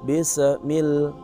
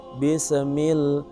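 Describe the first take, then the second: The two takes are said the same way.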